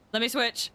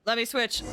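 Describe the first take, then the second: No difference in how they are said.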